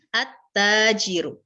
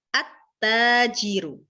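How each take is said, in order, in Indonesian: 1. Huruf L menyatu menjadi bunyi T ganda. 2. Huruf L menyatu menjadi bunyi T ganda.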